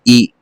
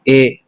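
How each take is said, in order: First: The vowel is a clear, high 'ee' sound. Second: The vowel is a lower, mid 'eh' sound. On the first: The speaker calls it right. "मारूफ यानी साफ पढ़ा जाए" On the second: The speaker calls it wrong. "ये गलत हो जाएगा, ये मजहूल हो जाएगा"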